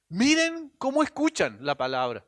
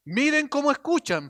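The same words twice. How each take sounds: First: Said in the usual way. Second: Emphatic repeat. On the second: Shown as a demonstration.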